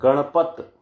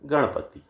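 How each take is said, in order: First: The word ends without a final 'i' vowel. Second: The word ends with a short 'i' vowel. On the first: The speaker calls it wrong. "शब्दांत से ह्रस्व ई तथा ऊ का लोप कर देना" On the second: The speaker calls it right. "वास्तव में ये शब्द है गणपति"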